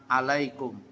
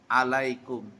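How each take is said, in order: The two takes are said the same way.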